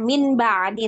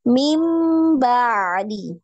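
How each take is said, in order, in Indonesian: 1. Kata pertama berakhir dengan bunyi n. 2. Kata pertama berakhir dengan bunyi m. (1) "bukan min ba'di lagi" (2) "tapi mim, berubah bunyinya ya"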